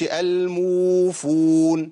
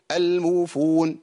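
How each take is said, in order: First: الموفون with uu dragged too long, louder; wrong overlong madd. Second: الموفون with uu cut short; wrong short madd. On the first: Teacher demonstrating a common overlong waw mistake. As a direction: overstretch the uu in الموفون. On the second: Teacher demonstrating a too short waw mistake. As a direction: clip the uu of الموفون. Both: Shown as a demonstration. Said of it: "ما ينفعش".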